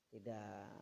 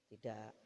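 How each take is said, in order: No difference in how they are said.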